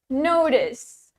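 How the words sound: It is said in an American accent.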